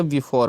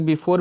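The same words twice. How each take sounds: First: Before with an open "aw" in the last syllable; correct pronunciation. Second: Before said quickly with rounded o, "bi-phor"; local pronunciation. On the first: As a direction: say before as "bi-fawr", opening the vowel. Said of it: "लेकिन शुद्ध उच्चारण का before होता है". (before को शुद्ध "बिफ़ॉर" बोलें) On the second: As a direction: say before the local Indian way, "bi-por". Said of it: "यहाँ के लोग before भी पढ़ते हैं". (before को स्थानीय ढंग से "बिफोर" बोलें) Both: Shown as a demonstration.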